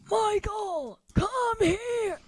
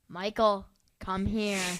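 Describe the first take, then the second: First: It is said loudly. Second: It is said quietly.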